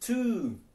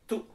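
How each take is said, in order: First: The vowel is long, tense and rounded. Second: The vowel is short and not rounded. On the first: The speaker calls it right. "tapi two" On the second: The speaker calls it wrong.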